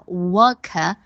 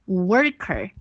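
First: The syllable ends have no r sound. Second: Both syllable ends have a curled r sound. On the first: "英国人会把worker 这个单词读作worker，没有r 音" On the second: "美国人在末尾，因为它两个音节的末尾都有r，它就会读作worker"

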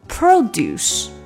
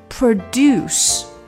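First: The stress is on the first syllable. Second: The stress is on the second syllable. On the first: It is a noun meaning farm products. "当你把它变成低声重音produce" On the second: It is a verb meaning to make something. "这是动词"

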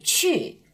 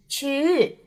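First: The pitch drops quickly from high to low. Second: The pitch moves upward instead of falling. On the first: The speaker calls it right. "规范的呢是去" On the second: The speaker calls it wrong. "有的方言里呢会把第4 声说成上扬的"

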